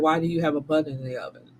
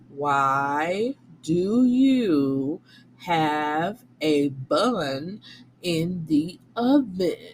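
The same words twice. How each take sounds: First: The question is said at normal speed. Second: The question is said slowly.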